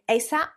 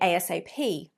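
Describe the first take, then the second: First: It is said as a single word. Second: It is said letter by letter. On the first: "in American English, they often say ASAP" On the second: "we'd use it more as an initialization and say ASAP"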